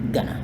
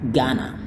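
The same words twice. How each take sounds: First: The word is said quickly and shortened. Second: The word is said slowly and fully. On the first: "yang kedua itu lebih cepat" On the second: "seperti yang tertulis"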